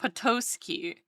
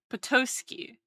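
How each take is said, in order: Both takes have the same delivery.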